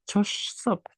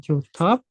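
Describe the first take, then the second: First: The middle consonant is an s sound. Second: The middle consonant is a t sound. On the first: The speaker calls it right. "tapi chosop" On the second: The speaker calls it wrong. "bukan chotop"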